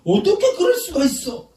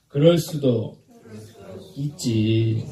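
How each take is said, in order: First: High, loud mock-indignant cry; outraged disbelief. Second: Measured, low-falling acceptance; accepting shrug. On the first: Showing congregation how anger starts, outraged disbelief. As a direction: hurl it out as an exaggerated accusation. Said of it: "이러니까 화가 나는". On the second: Preacher leading congregation in a forgiving reply, accepting. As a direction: model a tolerant reply for others to repeat. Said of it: "한번 따라합시다". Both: Shown as a demonstration.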